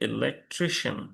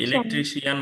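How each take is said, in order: First: The ending is said like 'shun'. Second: The ending is said like 'shee-an'. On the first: The speaker calls it right. "there should be electrician" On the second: The speaker calls it wrong. "ইলেকট্রিশিয়ান বলে আমরা"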